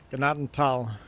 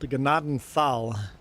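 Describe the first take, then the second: First: The middle consonant is a plain t. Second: The middle consonant is a th sound. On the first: The speaker calls it right. "Pretend the T H is just a T" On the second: The speaker calls it wrong. "They read it the way it's spelled"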